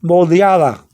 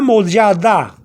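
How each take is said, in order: First: "moldeada" with the D softened towards th; smooth "moldeada", th-like final D; slight TH after D. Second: "moldeada" with firm D's, as it is written; spelling-style "moldeada", no th softening; hard D as written. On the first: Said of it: "if you have a slight T H sound after the D". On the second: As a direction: pronounce every D hard in "moldeada". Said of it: "it wouldn't sound too good". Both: Shown as a demonstration.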